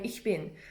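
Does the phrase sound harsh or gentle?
gentle. It is said gently, like a native speaker. The speaker calls it right.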